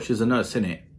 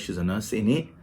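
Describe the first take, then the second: First: It sounds like a confident, certain remark. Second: It sounds like a genuine, unsure question. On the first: The speaker seeks agreement with something already believed. "if you're sure" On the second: The speaker really wants to know. "it could be a question ... so if you're not sure"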